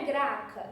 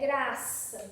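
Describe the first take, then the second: First: The consonant before the last vowel is a K sound. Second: The consonant before the last vowel is an S sound. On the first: The speaker calls it wrong. "Não é graca" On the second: The speaker calls it right. "é graça"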